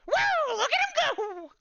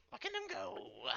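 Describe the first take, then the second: First: Very high, loud glitching squeal; glitchy creature squeal. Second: Very high, softer creature cry from the back; distant high chirp. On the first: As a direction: squeal it like a glitching little robot. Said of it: "glitch out and go". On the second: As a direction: call it from far behind. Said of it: "Calcumon from the back". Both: Acted.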